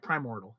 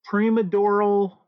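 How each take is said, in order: First: It is said with 'mor' and no extra syllable. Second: It is said with an extra 'a' syllable. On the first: The speaker calls it right. "That sounds better" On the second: The speaker calls it wrong. "I always keep mispronouncing it"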